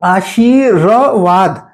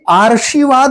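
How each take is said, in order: First: The r sound comes after shee. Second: The r sound comes before shee. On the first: The speaker calls it right. "तो शी के बाद र बोल रहे हैं" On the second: The speaker calls it wrong. "तो यहां गलती क्या हुई, आर्शीवाद हो गया"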